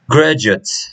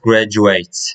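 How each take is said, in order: First: The final syllable is reduced, without an 'eight' sound. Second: The final syllable sounds like 'eight'. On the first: The speaker calls it right. "it's pronounced like uh, graduate" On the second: The speaker calls it wrong. "not graduate. There is no eight"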